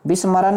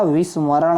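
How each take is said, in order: First: विस्मरण said as bis-ma-ran; b and plain n in विस्मरण; wrong form. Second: विस्मरण said as vis-ma-raṇ; v and retroflex ṇ in विस्मरण; correct form. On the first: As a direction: mispronounce विस्मरण with a b. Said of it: "नहीं होता". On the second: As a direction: curl the ending of विस्मरण. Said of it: "होता है". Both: Shown as a demonstration.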